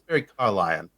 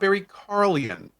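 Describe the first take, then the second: First: The surname ends with a 'lie-un' sound. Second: The surname ends with a short 'lee-un' sound. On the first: The speaker calls it right. "like a lion" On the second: The speaker calls it wrong. "it's not Barry Carlian"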